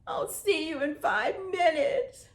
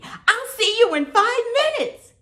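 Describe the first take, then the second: First: The line is spoken in a sad voice. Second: The line is spoken in a happy voice. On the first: "Now be sad" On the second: "Now let's say it happy"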